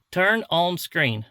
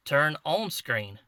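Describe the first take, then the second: First: Louder, slow, over-clear command; louder repeated command. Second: Slow, careful command to a device. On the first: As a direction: repeat it louder so the camera catches it. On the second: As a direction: spell the command out slowly for the camera. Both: Shown as a demonstration. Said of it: "guess it can't understand my, my, uh, country accent".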